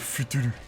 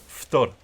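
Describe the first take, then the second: First: It is three syllables with vowels between consonants. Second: It is one syllable with clustered consonants. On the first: The speaker calls it wrong. "prononcé à la japonaise" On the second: The speaker calls it right. "ça se dit Ftor"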